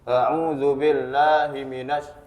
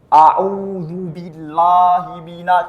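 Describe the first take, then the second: First: The vowels are half-formed and sound unclear. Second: The vowels are overdone and sound exaggerated. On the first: The vowels are not given their full value. "Kalau setengah-setengah pengucapannya, maka tidak jelas" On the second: The vowels are given more than their due. "berlebih-lebihan. Atau istilahnya takalluf"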